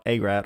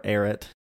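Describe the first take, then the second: First: "Ararat" said AY-rat; tentative pronunciation. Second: "Ararat" shortened to AIR-it; alternative pronunciation. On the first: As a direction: say "Ararat" with a long A and final "rat". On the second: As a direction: say "Ararat" with a weak second syllable, AIR-it. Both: Real, not acted. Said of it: "however you say it".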